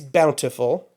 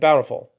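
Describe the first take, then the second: First: The middle T sound is pronounced. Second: The middle T sound is dropped. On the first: The speaker calls it right. "Now, it's Bountiful" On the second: The speaker calls it wrong. "I'm guilty of that one"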